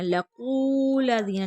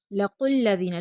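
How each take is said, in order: First: लकुल्लज़ीना with a long held कू and a single ल; wrong stretched qu. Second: लकुल्लज़ीना with a short कु closing firmly on the doubled ल; short qu joined to lam. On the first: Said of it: "नहीं पढ़ेंगे". (लकुल्लज़ीना, कु को गलत खींच कर) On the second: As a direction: join कु straight into the ल of लकुल्लज़ीना. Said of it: "क़ाफ़ को लाम के साथ मिलाएंगे". (लकुल्लज़ीना, कु छोटा, लाम से मिला कर) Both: Shown as a demonstration.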